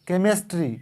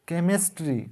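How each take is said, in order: The two takes are said the same way.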